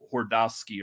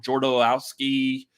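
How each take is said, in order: First: The name begins with a soft H sound. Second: The name begins with a hard J sound. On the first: The speaker calls it right. "It's not a J. It's like a, a soft J" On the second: The speaker calls it wrong. "I'm butchering the hell out of that"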